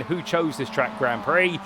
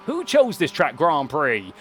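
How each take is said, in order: First: Said in the usual way. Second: Slow, lightly twanged American drawl on the quote; a hammed-up hint of an American twang, drawn out slow. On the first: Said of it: "So rather than saying". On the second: Commentator mimicking a sim racer's American twang, slow and lightly twanged. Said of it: "thrown a little bit of twang into it".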